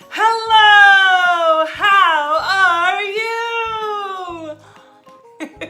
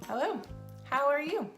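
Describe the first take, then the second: First: It is said with extreme exaggeration. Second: It is said with mild exaggeration.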